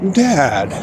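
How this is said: It is said slowly and thoughtfully.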